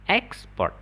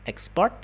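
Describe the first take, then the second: First: The stress is on the first syllable. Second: The stress is on the second syllable. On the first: It is a noun. "Export itu artinya non" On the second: It is a verb. "Export itu artinya dia kata kerja"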